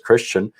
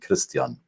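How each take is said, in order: First: The name is pronounced in the surrounding language's way. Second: The name is pronounced the way its owner says it. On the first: Most people in the room say it this way. "Everybody says" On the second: The speaker's linguistic identity is recognized. "except for this one guy who keeps saying"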